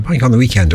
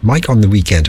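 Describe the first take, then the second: First: It is said at normal speed. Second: It is said slowly.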